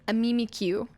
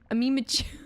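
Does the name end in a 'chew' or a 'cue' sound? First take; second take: cue; chew. First: The name ends with a 'cue' sound. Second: The name ends with a 'chew' sound. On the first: The speaker calls it right. "It goes Pikachu into Mimikyu" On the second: The speaker calls it wrong. "I want to call it Chew, not Q"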